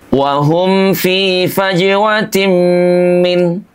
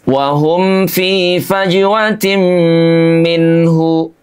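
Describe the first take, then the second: First: The final h sound is dropped entirely. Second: The final syllable is said as a full hu. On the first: "menghilangkan huruf H-nya" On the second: "hu-nya dibaca jelas"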